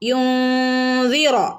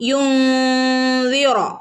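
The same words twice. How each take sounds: First: The n is hidden with a nasal hum. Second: The same.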